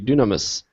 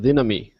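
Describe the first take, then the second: First: The word ends with a final s sound. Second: The word ends without a final s sound. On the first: This is the traditional seminary pronunciation. "the traditional seminary pronunciation would be" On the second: This is the modern Greek pronunciation. "modern Greeks don't pronounce the final S"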